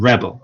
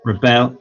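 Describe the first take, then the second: First: "rebel" as REB-ul, first syllable stressed. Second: "rebel" as ri-BEL, end syllable stressed; stress on second syllable. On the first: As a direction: put the weight on REB in "rebel". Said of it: "if it's a verb". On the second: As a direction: put the weight on BEL in "rebel". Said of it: "if it's a noun, that is". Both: Shown as a demonstration.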